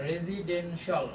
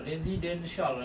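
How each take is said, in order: Both takes have the same delivery.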